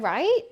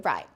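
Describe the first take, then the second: First: It sounds like a question asking for approval. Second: It sounds like a firm announcement opening a plan.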